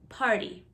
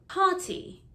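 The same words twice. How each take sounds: First: The T is soft, like a D. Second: The T is a hard, crisp T. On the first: This is how American speakers say it. "Americans, however, soften their T's" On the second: This is how British speakers say it. "British people really pronounce their T. Notice the hard T"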